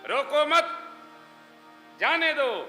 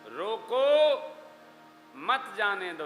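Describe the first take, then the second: First: The pause comes after 'mat', meaning let go. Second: The pause comes after 'roko', meaning stop.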